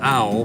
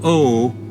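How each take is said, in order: First: The vowel is a gliding 'ow' sound. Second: The vowel is a plain 'oh' sound. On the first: The speaker calls it wrong. "it's not" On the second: The speaker calls it right. "is how you pronounce that"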